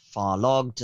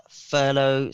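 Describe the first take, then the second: First: "farlogged" said as far-log, with a hard g; alternative pronunciation. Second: Said in the usual way. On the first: Shown as a demonstration. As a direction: say "farlogged" with an ah and a sounded g. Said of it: "some people pronounce it".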